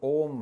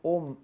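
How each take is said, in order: First: The vowel is drawn out long. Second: The vowel is short and clipped. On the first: "ये दीर्घ हो गया" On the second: "केवल ओम इतना नहीं बोलना चाहिए, ये ह्रस्व हो गया"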